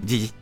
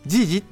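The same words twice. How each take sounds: First: It is said casually and less distinctly. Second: It is said crisply and very distinctly. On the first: "なんかジージとか" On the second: "ここまではっきり言わなくても"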